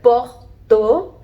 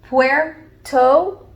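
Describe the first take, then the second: First: It is said the French way, sounding like porto. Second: It is said the English way, in two syllables. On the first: "Even in French" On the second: "in English and in Spanish, you have two syllables"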